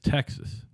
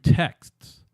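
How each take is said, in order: First: The word is said as two syllables. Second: The word is said as one syllable. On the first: "He says Texas" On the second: "one text, two texts"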